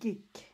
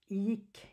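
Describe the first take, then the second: First: The word begins with a hard G sound. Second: The word begins with a Y sound. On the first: The speaker calls it wrong. "you don't say like gick" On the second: The speaker calls it right. "it's like uh, yick"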